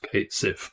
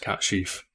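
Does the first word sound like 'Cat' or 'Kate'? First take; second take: Kate; Cat. First: It is said like Kate Sif, with plain s. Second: It is said like Cat Sheaf, with sh. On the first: This is how people read it from the spelling. The speaker calls it wrong. "people see that written out. It's Kate Sif" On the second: This is the original Gaelic pronunciation. The speaker calls it right. "the actual pronunciation is Cat Sheaf"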